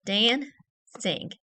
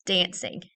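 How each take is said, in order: First: "Dancing" broken into two separate beats with a pause between; split into syllables. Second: Said in the usual way. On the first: Shown as a demonstration. Teacher moving a tile for each syllable, "Dancing" in two separated parts. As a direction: say "Dancing" syllable by syllable, Dan, then cing. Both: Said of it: "move a tile up for each syllable".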